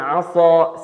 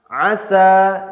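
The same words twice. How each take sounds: First: The s sound is heavy and emphatic. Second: The s sound is plain and light. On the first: The speaker calls it wrong. "dibaca dengan shad" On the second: The speaker calls it right.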